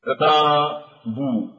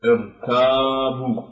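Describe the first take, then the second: First: ارتابوا said slowly with a thick ra; slow recital of ارتابوا with a heavy ra; heavy ra demo. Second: ارتابوا repeated slowly, ra kept thick; measured second recital of ارتابوا; heavy ra demo. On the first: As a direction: draw out ارتابوا and keep the ra heavy. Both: Shown as a demonstration. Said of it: "فالراء ساكنة ولكن بعد كسر عارض".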